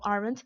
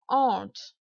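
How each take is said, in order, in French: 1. Le mot est prononcé de la façon couramment entendue. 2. Le mot est prononcé d'une autre façon, moins courante. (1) "on entend souvent aren't, c'est faux de le prononcer comme ça" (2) "La prononciation, c'est aren't"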